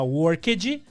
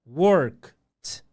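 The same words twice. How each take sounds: First: The ending is a strong, separate vowel sound. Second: The ending is only a short consonant sound. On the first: The speaker calls it wrong. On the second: The speaker calls it right.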